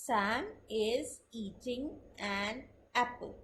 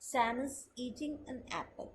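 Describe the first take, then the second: First: Very slow, word-by-word reading of Sam is eating an apple; slow textbook reading; reading aloud. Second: Softer, linked with is eating an apple run together as "itɪŋa næpəl"; conversational telling; connected speech. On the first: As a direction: read each word out separately and evenly. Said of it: "अब अगर मैं इसको पढ़ते हुए बोलूंगी". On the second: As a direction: stress Sam and apple, reduce is and an. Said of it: "अगर मैं किसी को बता रही होंगी तो इसकी प्रोनाउंसिएशन बिल्कुल चेंज हो जाएगी". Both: Shown as a demonstration.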